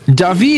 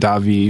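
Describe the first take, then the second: First: The stress is on the second syllable. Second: The stress is on the first syllable. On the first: "Davi is technically more correct. Like, there should be an accent over the I" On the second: "but I actually say it Davi more"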